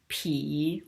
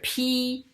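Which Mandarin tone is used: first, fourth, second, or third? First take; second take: third; first. First: The syllable is said with a low dipping pitch. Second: The syllable is said with a high level pitch.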